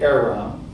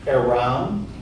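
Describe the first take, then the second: First: The stress is on the first syllable. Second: The stress is on the last syllable. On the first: The speaker calls it right. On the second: The speaker calls it wrong. "you never accent the last syllable of a Latin word"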